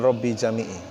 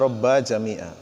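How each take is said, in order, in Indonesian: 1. Kedua kata berakhir dengan vokal 'i'. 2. Kedua kata berakhir dengan vokal 'a'. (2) "Yang benar adalah"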